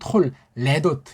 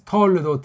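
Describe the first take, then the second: First: The first syllable is closed hard, then a break. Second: The syllables flow together lightly without a break. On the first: The speaker calls it wrong. "이건 어영부영 발음이에요" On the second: The speaker calls it right. "가볍게 뭐 을하고 세게 하려는 것은 아니고 그래서 톨레도트 이렇게 하면 되지"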